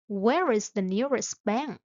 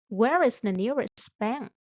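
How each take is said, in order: Both takes have the same delivery.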